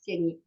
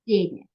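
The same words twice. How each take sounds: First: The first sound is a voiced v. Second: The first sound is a voiceless f. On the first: The speaker calls it wrong. "I will not pronounce like v" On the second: The speaker calls it right. "I will pronounce it like тени"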